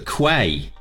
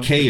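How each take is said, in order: First: The word is pronounced like kway. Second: The word is pronounced like key. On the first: The speaker calls it wrong. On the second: The speaker calls it right.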